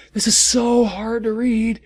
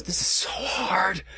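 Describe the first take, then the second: First: Higher, louder wailing complaint; exasperated wail. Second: Unvoiced strained whisper; whispered despair. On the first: Reader wails that the fanfic is too hard to read. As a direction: cry it out in frustration. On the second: Reader whispers in despair at the awful fanfic. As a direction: whisper it like you're breaking. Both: Real, not acted.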